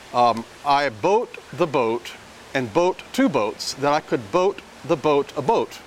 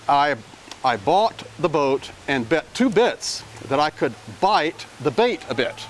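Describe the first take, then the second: First: Nearly every word uses the same vowel sound. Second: The words use many different vowel sounds. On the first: The speaker calls it wrong. "I'm using the same vowel sound for every single one of those words" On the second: The speaker calls it right. "if I put the right vowel sounds in, this is what it sounds like"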